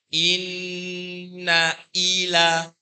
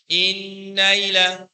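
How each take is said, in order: First: The glottal stop before 'ila' is clearly pronounced. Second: It is said quickly, gliding into a 'y' sound. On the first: The speaker calls it right. "ada hamzah yang berharokatkan ka kasroh" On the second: The speaker calls it wrong. "membaca dengan hadir, dengan cepat, ... terbaca menjadi ya sukun"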